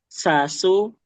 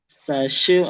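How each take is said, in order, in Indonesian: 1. Konsonannya dilafalkan sebagai s biasa. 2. Konsonannya dilafalkan seperti sh. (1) "Tapi semuanya sin" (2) "kayak shin, sashu, eh enggak"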